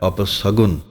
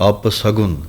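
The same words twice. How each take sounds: The two takes are said the same way.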